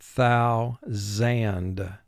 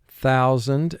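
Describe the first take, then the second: First: The word is split into two separate syllables. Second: The word is said smoothly as one unit.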